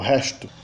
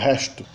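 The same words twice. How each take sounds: First: It is said in a Portugal accent. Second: It is said in a Portugal accent.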